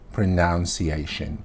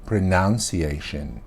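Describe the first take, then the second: No difference in how they are said.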